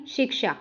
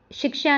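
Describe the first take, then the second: First: शिक्षा said carefully, softer and falling; correct form. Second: शिक्षा in its faulty form, pitched up; mistaken form. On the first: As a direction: settle शिक्षा as the model pronunciation. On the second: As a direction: voice शिक्षा as the error to avoid. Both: Shown as a demonstration. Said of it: "शिक्षा नहीं".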